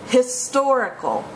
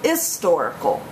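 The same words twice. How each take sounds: First: The word starts with an audible H sound. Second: The word starts with a vowel, no H. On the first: "H is pronounced" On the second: "H is silent"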